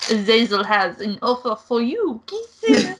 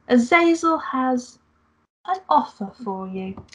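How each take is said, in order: First: Camp kisses. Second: Said in the usual way. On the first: Acted. Angel teases the player with a camp sign-off.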